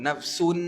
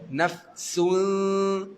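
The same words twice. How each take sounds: First: The final n is sounded out as a full nun. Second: The final n is hidden in a nasal hum. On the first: The speaker calls it wrong. "jangan kita de- dengungkan dia sampai bunyi huruf nun ... tu tak betul" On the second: The speaker calls it right. "Tapi nun tak ada"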